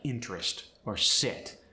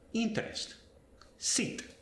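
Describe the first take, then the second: First: The i vowel is short and lax. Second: The i vowel is tense like Spanish i. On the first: "In English, the I sound" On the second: "But in Spanish, it sounds like I instead of I"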